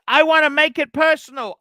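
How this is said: It is read with strong, heated passion. The speaker calls it right.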